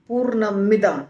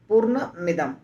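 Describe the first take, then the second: First: The two words are run together as one. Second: The same.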